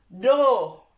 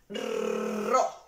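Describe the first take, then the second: First: The r is a single soft tap. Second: The r is a strong rolled trill. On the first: "la suave va a sonar do" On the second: "va a sonar más fuerte"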